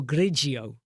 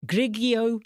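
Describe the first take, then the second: First: "Grigio" as GRIJ-ee-oh; soft-G Grigio. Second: "Grigio" as GRIG-ee-oh; hard-G Grigio. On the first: Streamer offering "Grigio" as GRIJ-ee-oh, soft G. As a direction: say "Grigio" with a J sound inside. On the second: Streamer offering "Grigio" as GRIG-ee-oh, hard G. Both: Shown as a demonstration. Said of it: "How do you pronounce it?".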